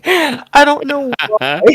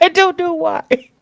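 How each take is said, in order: First: High, slow, laughing through the words; can barely speak for laughing. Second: Even higher, slow, laughing it out; helpless giggle, wheezing the words; still laughing. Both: Real, not acted. Laughing at the insult.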